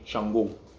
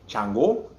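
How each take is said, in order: First: It is said the Yoruba way, with a sh. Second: It is said the Lukumi way, with a ch.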